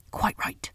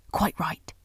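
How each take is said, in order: First: First "Quite right" breathed as a hoarse whisper; throaty whisper. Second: Said in the usual way. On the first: A narrator's reading. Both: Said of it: "in a hoarse, throaty whisper".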